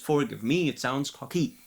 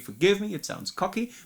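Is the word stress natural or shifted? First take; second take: shifted; natural. First: The stress falls on unusual, shifted syllables. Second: The stress falls on the usual syllables. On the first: The speaker calls it wrong. "But she does ... pronouncing all the syllables wrong" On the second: The speaker calls it right. "it should be"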